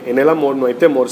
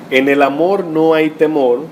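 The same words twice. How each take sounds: First: Said in the usual way. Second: Slow, weighty reading of the verse; scripture read out slowly for emphasis; slow emphatic reading. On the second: Shown as a demonstration. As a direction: lean on amor and temor, slowly. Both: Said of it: "oigan bien".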